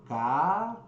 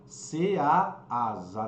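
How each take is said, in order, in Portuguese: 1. A palavra começa com um som de k puro. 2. A palavra começa com a sílaba 'say'. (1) "você pronuncia a letra K" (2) "você não fala ceasa"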